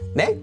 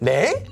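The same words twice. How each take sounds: First: It is short with a rising pitch. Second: It is drawn out and pitched higher. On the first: Asking someone to repeat something you missed. "the intonation goes up. It's a question, but it's short" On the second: Reacting like 'what? huh?' "a little bit longer, a little higher. That's like what?"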